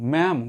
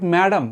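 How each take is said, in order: First: The word is said in one syllable. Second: The word is said in two syllables. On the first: The speaker calls it right. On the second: The speaker calls it wrong.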